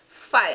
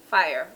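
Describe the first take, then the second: First: It is said with a Jamaican patois accent. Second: It is said with a standard English accent. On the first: "But Jamaicans say fire" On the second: "the proper pronunciation of the word is fire"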